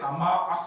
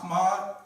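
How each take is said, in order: First: The name ends on a bare consonant. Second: The name ends on a bare consonant.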